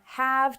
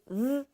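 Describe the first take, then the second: First: The word is pronounced in full. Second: The word shrinks to a v sound. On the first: "from have" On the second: "to th"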